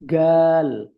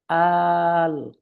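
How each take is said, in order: First: It begins with a hard g sound. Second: It begins with a glottal stop. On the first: This is how people in Aswan say it. "Orang Aswan bilang" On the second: This is how people in Cairo say it. "orang Kairo bilang"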